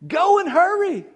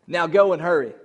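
First: Much higher, loud rallying cry; preached charge. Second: Said in the usual way. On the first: Real, not acted. Preacher charging his church to go: high, loud rallying cry. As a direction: fling the command over the congregation. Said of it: "So I say to you".

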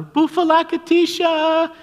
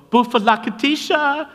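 First: Put-on very high, loud, drawn-out little-girl squeal; imitated louder yell. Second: Put-on high, loud squeal of a little girl calling up; imitated girl's yell. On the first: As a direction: yell it slowly at the very top of the voice. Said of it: "would yell a little louder". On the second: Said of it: "She just yelled at us".

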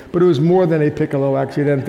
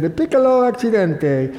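First: Said in the usual way. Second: High, lightly Italian police voice; Italian accent. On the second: Retold or imitated. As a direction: mimic an Italian officer, lightly. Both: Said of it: "As the Italian police said".

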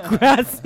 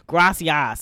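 First: Put-on loud, laughing correction in a Spanish accent; proper Spanish accent. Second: Put-on loud Oklahoma-accented Spanish, pitched up; mock a Spanish word in an Oklahoma accent. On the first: Correcting mom's Oklahoma Spanish, with a proper Spanish accent. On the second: Daughter imitating her mom learning Spanish, mock Oklahoma accent. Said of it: "will say it in Oklahoma accent".

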